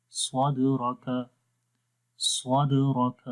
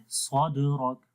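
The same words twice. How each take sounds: First: 「سواد راک」を軽いدでゆっくり; weak qalqala. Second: 「سواد راک」の「د」を強く弾いて詰める; overdone harsh د in سواد راک; wrong hard qalqala. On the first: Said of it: "کم قلقلے کی آواز میں آئے گی". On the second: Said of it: "تو ایسے نہیں پڑھیں گے". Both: Shown as a demonstration.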